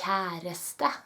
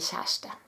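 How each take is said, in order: First: The word is said very slowly and drawn out. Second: The word is said quickly at normal speed. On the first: The speaker calls it wrong. "If you say it very slowly" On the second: The speaker calls it right. "you say kjæreste"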